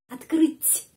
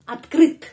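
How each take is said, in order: First: The final t is softened, close to a c. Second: The final t is hard and plain. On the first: "T menjadi C karena tanda pelemah melemaskan bunyinya" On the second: "kalau tidak ada tanda pelemah, cuma huruf konsonan itu T"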